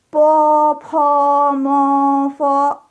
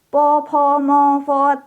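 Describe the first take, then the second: First: The syllables are recited slowly. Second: The syllables are recited quickly. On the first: "itu pelannya begitu" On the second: "membaca di luar kepala harus cepat. Misalkan begini ya"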